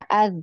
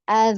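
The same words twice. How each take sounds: First: The final consonant is cut off abruptly. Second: The final consonant is voiced and sustained. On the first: The speaker calls it wrong. "Jadi bukan cuma az" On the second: The speaker calls it right. "tapi harus dialirkan suaranya"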